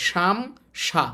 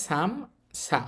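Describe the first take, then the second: First: সাম সা read the mistaken way many people use; mock the common mistake in সাম সা; common wrong reading. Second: সাম সা read the right way, set against the wrong take; teacher models the right সাম সা; correct reading. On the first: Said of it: "এটাকে অনেকে এইভাবে পড়ে". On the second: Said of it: "উচ্চারণটা হবে". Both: Shown as a demonstration.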